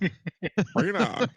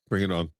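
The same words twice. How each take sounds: First: It is said in an American accent. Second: It is said in the speaker's normal accent.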